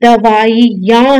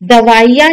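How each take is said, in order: First: दवाइयाँ slowly, syllable by syllable; correct pronunciation. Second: दवाइयाँ run together with a long ई; wrong pronunciation. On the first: Teacher giving the corrected word, careful pronunciation. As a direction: say दवाइयाँ slowly as da-vaa-i-yaan. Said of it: "छोटी ई की मात्रा लगती है". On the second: Teacher rejecting the long matra, wrong pronunciation. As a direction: say दवाइयाँ quickly as misspelt. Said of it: "नहीं है". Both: Shown as a demonstration.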